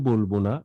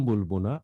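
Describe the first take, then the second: The two takes are said the same way.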